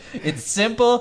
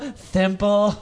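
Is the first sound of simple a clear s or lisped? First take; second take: clear s; lisped. First: The word starts with a clear s sound. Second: The word starts with a lisped th sound. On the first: "the first time he said it, no lisp" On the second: "Second time, thimple"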